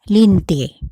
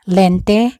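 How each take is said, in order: First: The first vowel is an i sound. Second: The first vowel is an e sound. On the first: "is pronounced as I in Bicol" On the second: "the E sound in the Spanish or in English"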